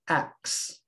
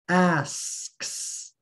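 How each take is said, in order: First: The s before the k is left out. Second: All three consonants are pronounced after the vowel. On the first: The speaker calls it wrong. "If you accidentally leave out the first S sound" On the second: The speaker calls it right. "That's four sounds, one vowel, three consonants"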